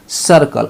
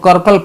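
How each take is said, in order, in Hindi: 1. शब्द s ध्वनि से शुरू होता है। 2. शब्द k ध्वनि से शुरू होता है। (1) "सी के बाद देखिए आई है" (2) "सी को का नहीं ना पढ़ेंगे"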